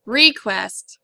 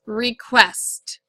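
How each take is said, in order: First: Request with the weight on re; wrong stress on first syllable. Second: Request with the weight on quest; stress on second syllable. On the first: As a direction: RE stressed, quest light. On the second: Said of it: "The word is pronounced request". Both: Shown as a demonstration.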